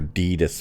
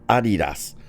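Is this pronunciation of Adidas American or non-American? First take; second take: American; non-American. First: It is said the American way. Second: It is said the non-American way.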